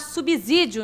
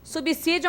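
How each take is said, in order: First: The middle consonant sounds like a z. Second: The middle consonant sounds like an s. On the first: The speaker calls it wrong. "A gente não deve falar subsídio" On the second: The speaker calls it right. "se pronuncia com som de S"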